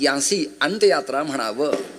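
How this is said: It is said in a nasal voice.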